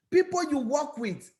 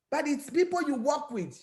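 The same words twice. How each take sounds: First: Said in the usual way. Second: "people" pressed hard, raised voice; insistent, almost shouted repeat; emphatic. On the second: Shown as a demonstration. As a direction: hammer home "people you work with".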